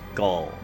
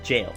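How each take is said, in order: First: It starts with a hard G, rhyming with ball. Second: It starts with a J sound, rhyming with mail. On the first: The speaker calls it wrong. "I always said Gaul, like like the way I just said it" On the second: The speaker calls it right. "they pronounced it jail"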